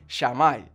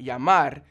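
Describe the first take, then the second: First: The word begins with a sh sound. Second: The word begins with a y sound. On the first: "where the double L sound becomes the sh sound" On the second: "instead of saying llamar"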